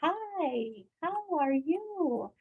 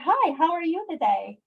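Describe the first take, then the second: First: It is said slowly, as if to a toddler. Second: It is said at a normal adult pace.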